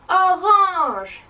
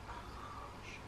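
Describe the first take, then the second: First: It is said very loudly. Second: It is said very quietly.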